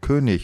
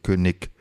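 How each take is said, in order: First: The final g sounds like a soft ch. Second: The final g sounds like a hard k, southern style.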